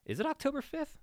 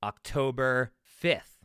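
First: Pitched way up in a mock double-take; mock disbelief. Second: Said in the usual way. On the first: Shown as a demonstration. A podcaster doubting the date, asking way up high. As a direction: ask it high as if the date just hit you. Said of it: "repeats the date as question". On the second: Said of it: "repeats the date in different tunes".

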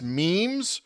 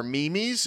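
First: Said in the usual way. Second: "memes" said in two syllables, MEE-meez; joking mispronunciation. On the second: Shown as a demonstration. Host jokily offering listeners another way to say it, "memes" as mee-meez. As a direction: stretch "memes" into "mee-mees". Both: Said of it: "if you like to say it that way".

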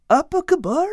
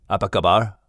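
First: High-pitched puzzled echo; high little fellow trying out unfamiliar words. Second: Put-on low panther greeting in a Malaysian accent; deep-voiced Malay greeting from a big cat. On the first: Acted. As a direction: repeat the foreign phrase high and unsure. Al repeats the unfamiliar Malay phrase.

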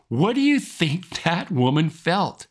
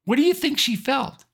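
First: Said in the usual way. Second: "you" lifted high in "What do you think she felt?"; asked again with "you" pitched up high; pressing question. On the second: Shown as a demonstration. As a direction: lean on "you" and rise sharply.

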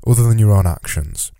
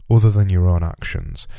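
The two takes are said the same way.

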